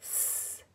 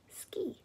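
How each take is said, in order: First: "ski" very softly as s, k, ee; broken into phonemes. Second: Said in the usual way. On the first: Shown as a demonstration. Breaking a word apart for phonics, "ski" segmented. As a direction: separate sounds of "ski", with gaps. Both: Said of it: "Now break it".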